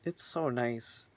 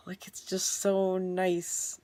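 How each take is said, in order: First: Said in the usual way. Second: Contented whisper. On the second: Real, not acted. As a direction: breathe it out, barely voiced, savouring it. Whispers joy about transition.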